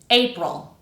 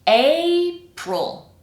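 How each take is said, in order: First: The word is said at normal speed. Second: The word is said slowly and carefully. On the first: "the second time normally" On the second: "The first time kind of slowly"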